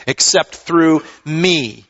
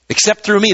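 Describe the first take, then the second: First: "through" stressed and drawn out, slow; slow down and lean on "through"; emphatic, with weight on "through"; stressed, slowed repeat. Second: Said in the usual way. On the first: Shown as a demonstration.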